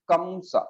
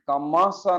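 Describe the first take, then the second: First: No vowel is sounded after the m. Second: A full vowel is sounded after the m. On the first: The speaker calls it right. "मां के साथ आ नहीं बोल रहे हैं" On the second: The speaker calls it wrong. "कमासा नहीं बोल रहे हैं"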